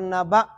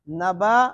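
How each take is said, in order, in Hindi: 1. अंतिम स्वर गले की एक अचानक रुकावट के साथ समाप्त होता है। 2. अंतिम स्वर बिना किसी रुकावट के सहजता से समाप्त होता है। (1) "हमजा सख्ती से" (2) "अलिफ जो है ना वो नरमी से पढ़ा जाता है"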